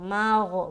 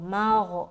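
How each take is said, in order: No difference in how they are said.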